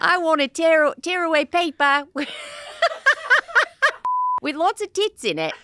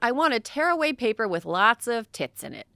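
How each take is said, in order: First: It is read in an Australian accent. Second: It is read in the speaker's normal accent.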